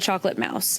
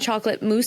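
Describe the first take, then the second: First: The last word rhymes with 'house'. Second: The last word rhymes with 'loose'. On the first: The speaker calls it wrong. "he said chocolate mouse" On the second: The speaker calls it right. "instead of saying chocolate mousse"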